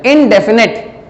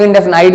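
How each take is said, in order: First: "इनडेफिनिट" ending in a short "-nit"; "इनडेफिनिट", short final "i"; standard pronunciation. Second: "इनडेफिनाइट" ending in a long "-nite"; "इनडेफिनाइट", final vowel as "eye"; variant pronunciation. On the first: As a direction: say "इनडेफिनिट" with the last syllable rhyming with bit. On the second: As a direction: say "इनडेफिनाइट" with the last syllable rhyming with night. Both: Shown as a demonstration. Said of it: "कुछ लोग इनडेफिनाइट भी बोलते हैं".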